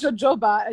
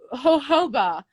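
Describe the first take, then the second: First: The word has an anglicized, English-style pronunciation. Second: The word has a Spanish-style pronunciation. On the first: The speaker calls it wrong. "It's not jojoba" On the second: The speaker calls it right. "it's jojoba"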